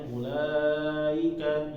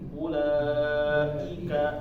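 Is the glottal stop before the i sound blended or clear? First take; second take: blended; clear. First: The glottal stop before i is blurred, sounds glide. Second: The glottal stop before i is held and distinct. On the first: The speaker calls it wrong. "jangan sampai bacanya ulaika, ika, ika, i-nya nggak jelas" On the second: The speaker calls it right. "Jadi harus ulai, ulai, ulaika, ika, jelas ya"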